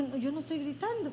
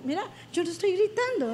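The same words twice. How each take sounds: First: Soft, quick protest; hushed, hurried self-defence; not shouting. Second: Quick, insistent denial; brisk protest, livelier and more pressing; protesting not shouting. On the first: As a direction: quietly deny that you are shouting. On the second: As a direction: insist you are not shouting, voice rising. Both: Retold or imitated. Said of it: "baja la voz porque estás gritando".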